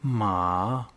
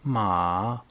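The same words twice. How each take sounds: Both takes have the same delivery.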